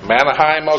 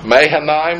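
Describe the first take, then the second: First: The name starts with the sounds 'Mana'. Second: The name starts with the sounds 'Maha'. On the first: The speaker calls it wrong. "I don't think it's the steamroller" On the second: The speaker calls it right. "is that better?"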